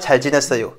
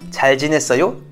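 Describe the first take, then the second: First: The voice falls at the end, like a statement. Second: The voice rises at the end, like a question.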